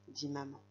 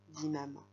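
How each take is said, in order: No difference in how they are said.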